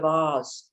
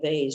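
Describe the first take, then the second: First: It is said in a non-American way. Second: It is said the American way.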